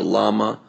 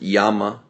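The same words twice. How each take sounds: First: The word is said with an English pronunciation. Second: The word is said with a Spanish pronunciation.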